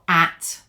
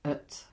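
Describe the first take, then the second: First: The vowel is full and clear. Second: The vowel is reduced to a weak schwa. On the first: The speaker calls it wrong. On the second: The speaker calls it right. "Weak forms. but"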